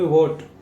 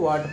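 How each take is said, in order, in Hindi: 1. स्वर 'oh' के ज़्यादा करीब सुनाई देता है। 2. स्वर लंबे 'ah' जैसा सुनाई देता है। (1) "इसको क्या पढ़ोगे, वोट" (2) "इसको वाट पढ़ देते हो"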